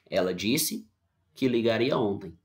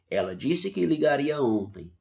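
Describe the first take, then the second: First: There is a pause after the verb. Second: There is no pause after the verb. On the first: The speaker calls it wrong. "Tá errado" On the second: The speaker calls it right. "pode ler sem pausa"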